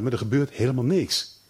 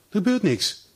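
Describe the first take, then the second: First: Said in the usual way. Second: Higher, stressed repeat of gebeurt; emphatic repeat. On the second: Shown as a demonstration. Preacher hammers home that nothing happens, emphatic. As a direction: lean hard on gebeurt, lifted.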